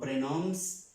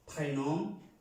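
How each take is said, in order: First: The final s sound is pronounced. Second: The final s sound is silent. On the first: The speaker calls it wrong. "no prénoms" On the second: The speaker calls it right. "sino prénom"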